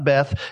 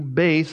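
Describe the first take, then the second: First: The word is pronounced the English way. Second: The word is pronounced the Hebrew way. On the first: The speaker calls it wrong. "not Beth" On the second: The speaker calls it right. "that's how it's pronounced in Hebrew"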